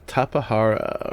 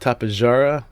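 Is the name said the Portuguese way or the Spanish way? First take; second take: Spanish; Portuguese. First: The name is said the Spanish way. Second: The name is said the Portuguese way. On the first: "depending on whether you're speaking Spanish" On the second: "or Portuguese"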